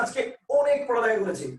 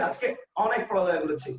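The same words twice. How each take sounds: First: "অনেক" begun with a closed o, as "onek"; wrong vowel demo. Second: "অনেক" begun with open ɔ, as "ɔnek"; natural open vowel. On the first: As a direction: say "অনেক" with a rounded o sound at the start. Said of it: "আমরা কিন্তু বলি না". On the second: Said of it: "আমরা বলতেছি কি". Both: Shown as a demonstration.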